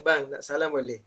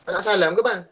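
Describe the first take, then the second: First: Softer, gentle asking; wife softly asking her husband before work, gentle; gentle request. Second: Wife snapping at her husband as he leaves, curt; curt wife's demand. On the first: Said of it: "Patut isteri kata". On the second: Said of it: "janganlah isteri kata". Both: Shown as a demonstration.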